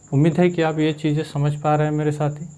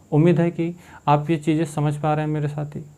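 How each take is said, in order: The two takes are said the same way.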